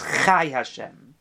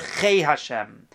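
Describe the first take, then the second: First: The first word ends with an 'ai' vowel. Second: The first word ends with an 'ei' vowel. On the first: Life is the inseparable essence itself. The speaker calls it right. "It always says chai Hashem" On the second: Life is something separable, added on. The speaker calls it wrong. "It never says anywhere chei Hashem"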